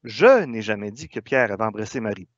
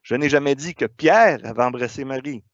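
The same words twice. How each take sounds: First: The stress is on the word je. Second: The stress is on the word Pierre.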